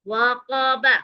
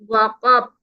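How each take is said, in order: First: The word ends with a short vowel after b. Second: The word ends on a stopped, bouncing b. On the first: "बा ज़बर बा" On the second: "यहाँ स्टॉप है, हम आखिरी हर्फ को साकिन काट देंगे"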